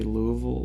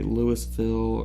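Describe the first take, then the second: First: The word ends with a reduced 'vol' sound. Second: The word ends with a full 'ville' sound. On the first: "it's like the Vol part" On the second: "They don't say Ville"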